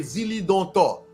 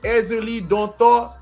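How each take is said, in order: First: The name begins directly with the Z. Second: A vowel sound comes before the Z. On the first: This is how another community says it. "they say Zili Dontor" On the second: This is how the speaker's own tradition says it. "what they call it"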